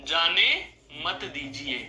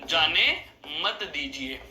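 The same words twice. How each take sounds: The two takes are said the same way.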